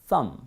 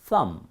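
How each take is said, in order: First: The word ends on the m, b silent. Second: The word ends on the m, b silent.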